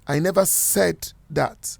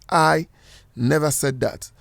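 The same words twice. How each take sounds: First: The word "said" carries the main stress. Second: The word "I" carries the main stress. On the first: It was implied or written, not said. "if you are to stress the word "said,"" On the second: Someone else said it. "If you are stressing the word I"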